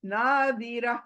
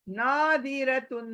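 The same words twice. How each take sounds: First: नादिरा as a clean pausal ending; stopping form. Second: नादिरतुन said slowly with the full तुन ending; नादिरतुन, ending untouched; full tanween form. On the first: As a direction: stop on नादिरा with no तुन. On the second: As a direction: read नादिरतुन sounding every syllable through तुन. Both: Shown as a demonstration. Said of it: "हम क्या पढ़ेंगे?".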